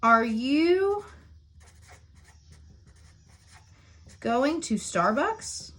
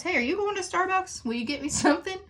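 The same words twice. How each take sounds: First: Slow dictation. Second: High, light friendly question to a colleague; chirpy high-pitched coffee request to a coworker; casual asking a favor. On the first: Shown as a demonstration. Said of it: "our example for inter-, interrogative sentence is". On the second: Retold or imitated. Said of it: "So I could ask Mister Cox".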